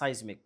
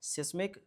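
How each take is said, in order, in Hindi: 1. पहला अक्षर लंबा है, 'size' जैसा। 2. पहला अक्षर छोटा है, 'sis' जैसा। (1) "कुछ लोग इसको साइज्मिक पढ़ते हैं" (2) "जो मेरे जैसे हैं वो इसको सिस्मिक पढ़ते हैं"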